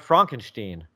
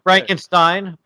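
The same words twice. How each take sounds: First: The ending rhymes with 'seen'. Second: The ending rhymes with 'line'. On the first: "or Steen" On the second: "It can go Stein"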